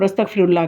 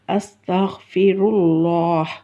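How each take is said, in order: First: The final h sound is dropped entirely. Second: The final h sound is clearly pronounced. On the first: The speaker calls it wrong. "हा को ही ख़त्म कर देते हैं" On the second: The speaker calls it right. "इसको सही अदा करना है"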